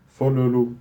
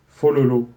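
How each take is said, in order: The two takes are said the same way.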